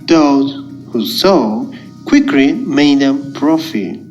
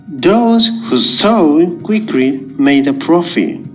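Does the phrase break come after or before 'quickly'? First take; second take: before; after. First: The phrase break comes right before 'quickly'. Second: The phrase break comes right after 'quickly'. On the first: The profit came quickly. "A profit was quickly made by those who sow" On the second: The sowing was quick. "A profit was made by those who sowed quickly"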